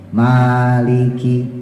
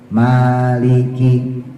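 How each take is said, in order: First: The first vowel is drawn out long. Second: The first vowel is drawn out long.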